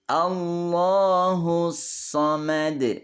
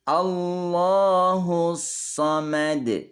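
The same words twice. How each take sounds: No difference in how they are said.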